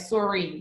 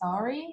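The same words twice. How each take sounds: First: The word is said strongly, with more force. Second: The word is said lightly, with little force. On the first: This is the Canadian-influenced way. "I say like sorry" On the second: This is how people in Australia say it. "they would say like sorry, maybe like lighter"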